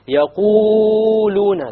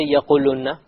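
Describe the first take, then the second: First: The long vowels are drawn out too long. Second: The long vowels are clipped short. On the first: "it's a mistake to make it longer than two" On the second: "You don't say يَقُولُونَ. You have to make it long"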